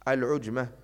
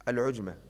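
No difference in how they are said.

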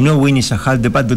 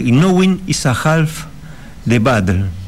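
First: The words are run together very fast. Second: The words are spoken separately at normal speed.

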